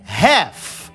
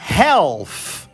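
First: No L sound is heard in the word. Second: An L sound is heard in the word. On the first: The speaker calls it right. "a gente manda o L embora e a gente fala half" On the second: The speaker calls it wrong. "muita gente fala errado, metade, que falam"

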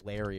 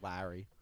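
First: It is said in a North Carolina accent. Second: It is said in a New Jersey accent.

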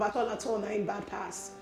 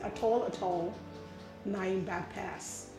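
First: It is said in the speaker's ordinary voice. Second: It is said in a put-on accent.

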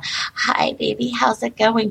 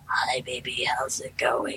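First: The voice sounds clear and healthy. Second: The voice sounds sick and hoarse.

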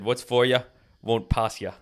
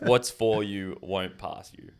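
First: It is said in an Irish accent. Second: It is said in her usual plain accent.

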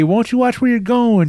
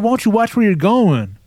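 First: It is said in a light, joking tone. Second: It is said in an aggressive, confrontational tone. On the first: The speaker is only joking to start a conversation. The speaker calls it right. "Not that aggressive, but like I'm not paying attention" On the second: The speaker is genuinely angry at the other person. The speaker calls it wrong. "Probably not that aggressive"

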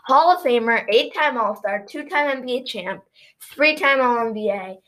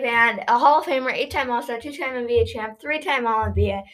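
First: It is said slowly. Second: It is said fast.

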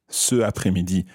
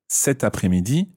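First: The vowel runs straight into après with no t. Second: A t sound links the first word into après. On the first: The speaker calls it wrong. "Sounds funny" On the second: The speaker calls it right. "cet is spelled C-E-T"

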